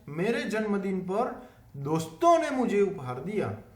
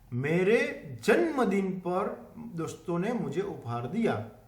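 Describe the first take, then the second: First: The stress is on doston. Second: The stress is on janmadin.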